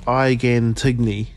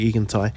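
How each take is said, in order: First: The second word has two syllables. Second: The second word has one syllable. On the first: The speaker calls it wrong. "I read it as Igan Tigney" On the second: The speaker calls it right. "but it's actually Egan Tai"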